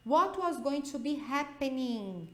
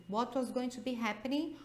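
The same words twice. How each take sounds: First: What said slowly and firmly; slow model sentence. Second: Said in the usual way. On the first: Shown as a demonstration. Teacher reading the example sentence slowly. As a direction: read it slowly for students to copy. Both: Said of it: "Dá uma olhada nessa frase".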